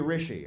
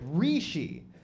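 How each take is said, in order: First: The first vowel is short, as in rich. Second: The first vowel is a long ee sound. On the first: The speaker calls it right. "it's supposed to be Rishi. It's like Richie but feminine. It's supposed to be like rich" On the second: The speaker calls it wrong. "everybody says Rishi. Like there's four e's"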